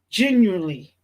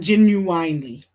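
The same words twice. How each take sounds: First: The middle syllable sounds like 'win'. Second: The middle syllable sounds like 'wine'. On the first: The speaker calls it right. "Genuinely is the correct pronunciation" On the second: The speaker calls it wrong. "not genuinely. Genuine is a singer"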